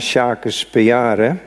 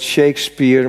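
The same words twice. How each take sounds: First: The name is read out letter by letter. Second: The name is pronounced the usual English way. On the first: "je moet de dingen uitspreken zoals ze zijn opgeschreven" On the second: "mijn moeder zei ook nooit Shakespeare"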